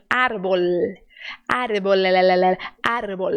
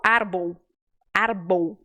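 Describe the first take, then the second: First: Árbol with a crisp final L; clear Spanish L. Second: Árbol said arbou, L vocalized; L turned to U. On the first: Teacher models the correct Spanish árbol, crisp L. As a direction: close árbol on a clean L. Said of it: "vai fazer esse L bem direitinho". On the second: Teacher mimics the learner's Brazilian mistake, árbol as arbou. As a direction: let the L in árbol slide into U. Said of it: "você pode querer dizer au". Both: Shown as a demonstration.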